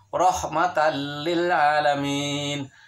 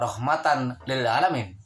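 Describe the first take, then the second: First: The n merges into a doubled l sound. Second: The n sound is pronounced separately before l. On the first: The speaker calls it right. "Seharusnya adalah rahmatan lil alamin" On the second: The speaker calls it wrong. "Bukan dibacanya rahmatan lil alamin. Salah besar jika begitu"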